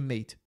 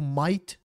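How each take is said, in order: First: The vowel sounds like 'mate', standard style. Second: The vowel sounds like 'might', Australian style. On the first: "ao invés de mate" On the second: "com o sotaque deles é um pouquinho diferente, fica tipo might"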